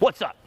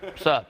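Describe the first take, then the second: First: It is said with high, hyped energy. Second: It is said with low, relaxed energy.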